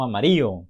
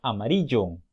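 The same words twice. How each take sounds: First: Amarillo as "amario", ll dropped. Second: Amarillo with a clear ll, "amariyo"; correct ll. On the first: Teacher imitating how some say amarillo. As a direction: drop the ll in amarillo. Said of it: "no amarillo, como algunos decimos". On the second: Teacher saying amarillo correctly. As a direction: say amarillo with a y sound. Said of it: "dice amarillo". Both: Shown as a demonstration.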